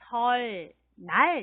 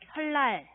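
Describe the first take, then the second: First: The syllables are separate, second begins with n. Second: The syllables are linked, second begins with l. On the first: "설, 날 이렇게 쓰는데" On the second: "읽을 때는 설날 네, 이렇게 읽어야 합니다"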